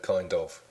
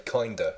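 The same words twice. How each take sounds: First: "kind of" as two words with the v sound; full "kind of". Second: "kinda" as one word ending in a loose uh; American-style "kinda", no v sound; run-together "kinda". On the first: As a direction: say "kind of" fully, British-style. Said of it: "instead of". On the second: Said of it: "he will say". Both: Shown as a demonstration.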